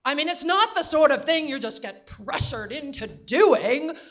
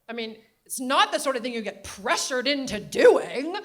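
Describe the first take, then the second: First: Put-on very loud, higher New England accent. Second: Put-on loud, laughing New England accent. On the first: Grandmother repeating her point to John, very loud New England accent. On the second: Grandmother insisting about Clinton, loud laughing New England accent. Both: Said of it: "New England Katharine Hepburn accent".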